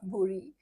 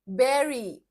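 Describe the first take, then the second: First: The first vowel sounds like the oo in boot. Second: The first vowel sounds like the e in bed. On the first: The speaker calls it wrong. "बुरी भी नहीं, never बुरी" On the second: The speaker calls it right. "bury, bury कर दो"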